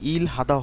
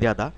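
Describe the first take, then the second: First: The middle h sound is clearly pronounced. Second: The middle h sound is dropped entirely. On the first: The speaker calls it wrong. "ইল হাদা হওয়ার কথা ছিল উচ্চারণটা" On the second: The speaker calls it right. "কিন্তু এখানে হ- এরকম উচ্চারণ হবে ইরাদা"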